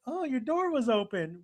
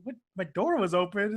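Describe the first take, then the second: First: Light, higher voice, falling at the end; innocent answer. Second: Questioning, rising at the end; incredulous echo. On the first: Mihoshi explains to Washu how she got in, innocent answer. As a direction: imitate an artless explanation. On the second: Washu repeats Mihoshi's explanation back, incredulous echo. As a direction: throw it back as a disbelieving question. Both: Retold or imitated.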